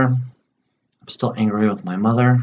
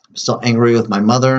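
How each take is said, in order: First: Slow tapping phrase. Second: Said in the usual way. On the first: Shown as a demonstration. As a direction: stretch each word out while tapping. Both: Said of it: "do some more tapping on this".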